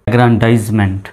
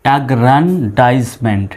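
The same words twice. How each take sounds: First: Said in the usual way. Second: অ্যাগ্রান্ডাইজমেন্ট slow, in separated chunks; broken into syllables. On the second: Shown as a demonstration. Teacher demonstrating the syllable method, broken into syllables. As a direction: split অ্যাগ্রান্ডাইজমেন্ট as agran, daiz, ment. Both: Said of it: "syllable অনুসারে ভেঙে ভেঙে উচ্চারণ করব".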